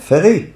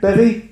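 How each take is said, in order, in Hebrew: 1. המילה מתחילה בצליל f רך. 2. המילה מתחילה בצליל p קשה. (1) "קוראים אותה רפא" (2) "פה זה התחלת תיבה. אז אומרים פרי"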